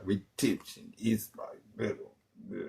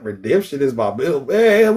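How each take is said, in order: First: Soft, hushed, eerie, low; a hammed-up hushed oracle line; mock mystic whisper. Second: Said in the usual way. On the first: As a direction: breathe it like a seer.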